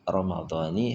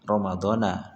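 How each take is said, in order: First: The word ends with an 'i' vowel. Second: The word ends with an 'a' vowel. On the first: The word is followed by a possessor phrase. "dibaca kasroh" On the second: The word stands without a following possessor phrase. "Kalau jar itu tandanya dengan fathah"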